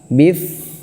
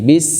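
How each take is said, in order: First: The syllable ends with a lisped th sound. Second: The syllable ends with a hissing s sound. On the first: The speaker calls it wrong. "Bedanya kalau tha, bif. Nah, ini salah" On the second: The speaker calls it right. "Harusnya lidahnya di dalam gigi, di belakang gigi"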